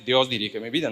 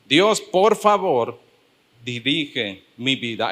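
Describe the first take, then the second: First: It is said as a flat statement. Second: It is said as a pleading request.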